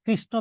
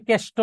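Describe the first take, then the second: First: Said in the usual way. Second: কেষ্ট as kesh-to, no r and no n; colloquial distorted pronunciation. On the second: Shown as a demonstration. Teacher showing students an altered Sanskrit word, colloquial কেষ্ট as kesh-to. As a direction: say কেষ্ট with an e and a hard t. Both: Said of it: "উচ্চারণ হচ্ছে বিকৃত উচ্চারণ".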